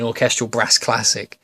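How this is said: It is said in a northern English accent. "it would have used to have been orchestral brass classic"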